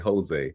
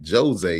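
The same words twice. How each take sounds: First: The name begins with a breathy H sound. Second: The name begins with an English J sound. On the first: The speaker calls it right. "you would say" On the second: The speaker calls it wrong. "you wouldn't say"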